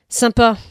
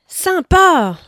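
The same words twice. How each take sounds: First: It is said short and final, closing down. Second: It is said with exaggerated, overflowing enthusiasm. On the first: The speaker closes off further engagement. "avec son point final. La porte se referme" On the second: The speaker is wide open and delighted. "avec ses trois points d'exclamation. La porte est grande ouverte"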